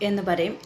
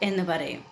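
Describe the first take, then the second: No difference in how they are said.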